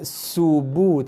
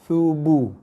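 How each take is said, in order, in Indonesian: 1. Kata ini diawali dengan bunyi s. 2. Kata ini diawali dengan bunyi th. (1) "Bukan subu" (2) "tapi thubu"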